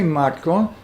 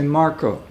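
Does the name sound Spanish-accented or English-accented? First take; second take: Spanish-accented; English-accented. First: It is said with Spanish syllable division. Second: It is said with English blended R-K coda.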